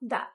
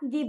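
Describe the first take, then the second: First: The vowel is a short 'uh' sound. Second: The vowel is a long 'ee' sound. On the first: This form is used before a consonant. The speaker calls it right. "আমরা বলবো দা" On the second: This form is used before a vowel. The speaker calls it wrong. "সেখানে আমরা দি বলবো না"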